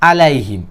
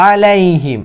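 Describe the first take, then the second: First: "আলাইহিম" with a plain initial a; wrong weak ayn. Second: "আলাইহিম" starting on a hard squeezed throat sound; strong ayn. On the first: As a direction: say "আলাইহিম" casually, without the throat sound. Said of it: "আমি ভুল পড়ছি". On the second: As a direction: press the first a of "আলাইহিম" from mid-throat. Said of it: "শক্ত করে উচ্চারণ করতে হবে". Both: Shown as a demonstration.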